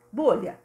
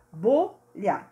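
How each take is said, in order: First: Said in the usual way. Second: "Bolha" split into two beats, bo and lha; syllable by syllable. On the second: Shown as a demonstration. Teacher counting syllables with pupils, "Bolha" said syllabically. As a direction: separate the syllables of "Bolha" clearly. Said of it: "Bolha tem duas sílabas".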